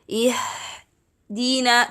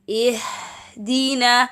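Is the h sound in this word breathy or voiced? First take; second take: breathy; breathy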